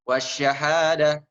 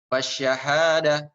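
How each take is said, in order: Both takes have the same delivery.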